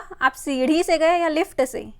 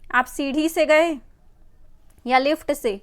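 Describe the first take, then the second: First: The consonant in सीढ़ी is a quick aspirated flap. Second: The consonant in सीढ़ी is a full aspirated stop. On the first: The speaker calls it right. "सही उच्चारण क्या होगा" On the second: The speaker calls it wrong. "सीढ़ी के नीचे से बिंदु हटा देते हैं"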